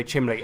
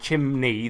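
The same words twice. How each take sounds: First: "chimley" with an L for the N; mispronounced chimney. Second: Said in the usual way. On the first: Shown as a demonstration. Friend showing how they say it, mispronounced "chimley". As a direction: say "chimley", L before the ee. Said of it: "they say chimley". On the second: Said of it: "instead of chimney".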